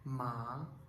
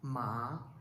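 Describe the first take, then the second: The two takes are said the same way.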